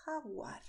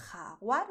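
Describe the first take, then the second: First: "jaguar" with a soft, h-like j. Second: "Jaguar" with a strong throaty j, louder. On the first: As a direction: say "jaguar" with a light breath for the j. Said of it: "a little soft". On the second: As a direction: open "Jaguar" on a hard, scraped j. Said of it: "or a little soft". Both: Shown as a demonstration.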